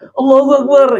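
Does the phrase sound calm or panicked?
panicked. It is said in a panicked, alarmed way. It is cried out in terror at a disaster. "orang yang lihat banjir sudah menerjang atap rumah tetangganya"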